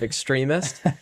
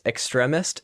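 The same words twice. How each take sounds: First: The word starts with an 'extreme' sound. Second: The word starts with an 'extra' sound. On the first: Most people say it this way. The speaker calls it right. "like everyone else" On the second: Someone else says it this way. The speaker calls it wrong. "What are we saying? Extra?"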